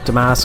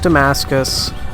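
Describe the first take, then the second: First: The name is said with two syllables. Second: The name is said with three syllables. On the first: The speaker calls it right. "I do try hard to say Damask" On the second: The speaker calls it wrong. "the anglicized pronunciation"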